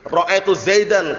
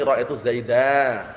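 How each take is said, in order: First: The last word ends with a full -an ending. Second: The last word ends in -a, without the n. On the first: The speaker calls it wrong. "keliru kalau antum waqaf" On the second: The speaker calls it right. "tapi ra'aitu zaida"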